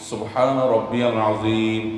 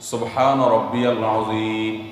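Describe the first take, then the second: No difference in how they are said.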